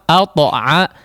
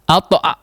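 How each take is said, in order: First: The bounced t flows out without a throat catch. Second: The bounced t ends in a throat catch. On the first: The speaker calls it right. "biarkan mengalir" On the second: The speaker calls it wrong. "jangan al-ta'a"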